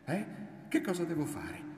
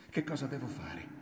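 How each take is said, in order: First: Much higher, pressing repeat of the question; insistent demand. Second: Raised pitch, falling at the end; pleading question. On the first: Woman pressing her silent lover, high insistent demand. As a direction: press hard for an answer, pitched right up. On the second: Woman asking her lover what to do, higher, contained plea. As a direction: ask for help, not yet forceful. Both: A narrator's reading.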